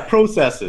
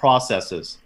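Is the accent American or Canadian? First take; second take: Canadian; American. First: It is said with a Canadian accent. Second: It is said with an American accent.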